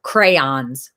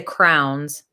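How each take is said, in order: First: Said in the usual way. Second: "crowns" for crayons, squashed to one syllable; regional pronunciation. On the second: Shown as a demonstration. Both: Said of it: "a lot of people say crowns".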